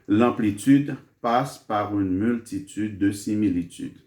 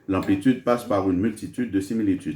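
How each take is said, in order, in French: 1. La phrase est dite lentement et avec soin. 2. La phrase est dite rapidement et vite. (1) "je répète ça lentement" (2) "je vais vite"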